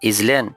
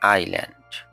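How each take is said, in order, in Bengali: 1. শব্দটি বানান অনুসরণ করে উচ্চারণ করা হয়। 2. শব্দটি তার প্রমিত উচ্চারণে বলা হয়। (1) "এটি ভুল উচ্চারণ" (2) "সঠিক উচ্চারণ হবে আইল্যান্ড"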